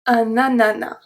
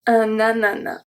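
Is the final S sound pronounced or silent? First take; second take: silent; silent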